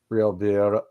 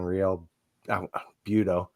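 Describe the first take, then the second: First: The name has an r sound misplaced. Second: The name has no misplaced r sound. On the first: The speaker calls it wrong. "I always say that wrong" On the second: The speaker calls it right. "I always want to put an R in there somewhere else"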